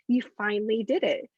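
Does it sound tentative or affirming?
affirming. It is said firmly, with affirming conviction.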